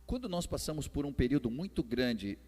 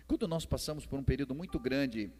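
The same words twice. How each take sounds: The two takes are said the same way.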